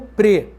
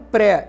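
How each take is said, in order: First: The vowel is closed and unstressed. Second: The vowel is open and stressed.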